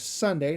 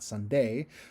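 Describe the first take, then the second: First: The emphasis falls on the first syllable. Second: The emphasis falls on the second syllable. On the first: The speaker calls it right. "I'm going to put more emphasis on the S in sun" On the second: The speaker calls it wrong. "not Sunday. ... instead of uh, emphasizing the D, D in day"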